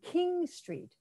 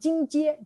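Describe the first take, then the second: First: The first word begins with a K sound. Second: The first word begins with a J sound. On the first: "you realize they're saying King Street" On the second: "Because Chinese like to say, oh, I live on Jingjie"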